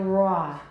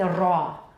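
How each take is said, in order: First: The r sound is smooth, without a trill. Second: The r sound is trilled. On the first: This is how the speaker says it. "it's definitely an approximant" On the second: Some speakers say it this way. "可能是一个颤音，不一定啊"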